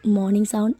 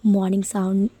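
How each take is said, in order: Both takes have the same delivery.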